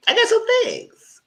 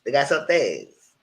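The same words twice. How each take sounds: First: Opening line squealed high and drawn out; high sing-song hello. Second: Said in the usual way. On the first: Shown as a demonstration. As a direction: pitch it way up playfully, slow.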